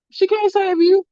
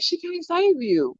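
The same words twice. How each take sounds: First: Higher, gloating sing-song; sing-song taunt. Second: Slow, softer taunt, held back; taunting her daughter hiding with grandma, softly and slowly; teasing taunt. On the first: Mom taunts daughter behind grandma, high and gloating. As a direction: rub it in, pitched up high. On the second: Mom to daughter hiding by Gigi, a soft slow taunt. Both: Retold or imitated. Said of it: "I'd be like".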